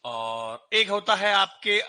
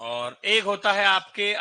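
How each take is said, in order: The two takes are said the same way.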